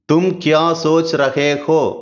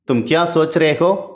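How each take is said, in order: First: Every syllable is pronounced clearly and fully. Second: It is said quickly, with 'rahe' shortened. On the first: "தெளிவா" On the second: "ரொம்ப நார்மலா ... ஃபாஸ்ட்டா"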